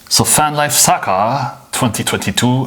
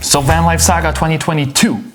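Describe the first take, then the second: First: It is said in a put-on German accent. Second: It is said in the speaker's normal accent.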